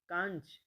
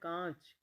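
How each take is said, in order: First: A separate n sound follows the vowel. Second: The vowel is nasalized without any n. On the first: The speaker calls it wrong. "ये नहीं होता" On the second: The speaker calls it right. "सही होता है"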